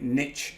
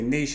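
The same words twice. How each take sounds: First: It is said the American way. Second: It is said the British way.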